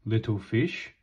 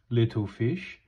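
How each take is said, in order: Both takes have the same delivery.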